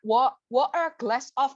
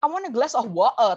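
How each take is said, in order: First: Halting "Wa-, water glass of"; jumbled word order. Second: Said in the usual way. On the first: Shown as a demonstration. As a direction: slowly fumble "water glass of" in scrambled order. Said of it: "kan orang nggak ngerti gitu". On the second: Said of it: "tapi kamu ngomongnya kayak".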